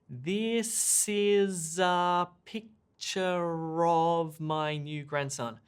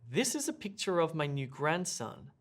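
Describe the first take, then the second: First: The sentence is said slowly. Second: The sentence is said at normal speed. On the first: "If you were to slow me down" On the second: "at a normal spoken rate"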